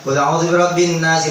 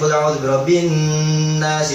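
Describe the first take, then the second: First: The n is clipped short with no nasal hum. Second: The n is held with an audible nasal hum. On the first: The speaker calls it wrong. "Gunanya nggak kena" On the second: The speaker calls it right. "Walaupun bacanya cepat, gunanya harus tetap keli kelihatan"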